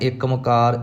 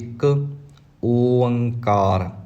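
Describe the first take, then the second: First: The 'o' vowel is dropped and merged into 'mkar'. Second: A clear open 'o' vowel follows 'ik'. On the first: The speaker calls it wrong. "ਇਸ ਤਰ੍ਹਾਂ ਕੁਝ ਨਹੀਂ ਕਹਿਣਾ" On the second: The speaker calls it right. "ਓ ਊੜੇ ਦਾ ਮੂੰਹ ਖੁੱਲ੍ਹਾ"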